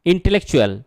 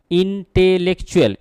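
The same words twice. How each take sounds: First: Said in the usual way. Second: intellectual sounded out syllable by syllable; teacher showing where intellectual breaks, each syllable set apart; broken into syllables. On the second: Shown as a demonstration. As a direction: split intellectual into distinct, measured beats. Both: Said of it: "এই শব্দটাকে ভাঙা যাচ্ছে".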